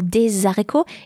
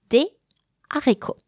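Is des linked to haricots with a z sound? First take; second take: Yes; No. First: A z sound links the two words. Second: No z sound links the two words. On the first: The speaker calls it wrong. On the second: The speaker calls it right.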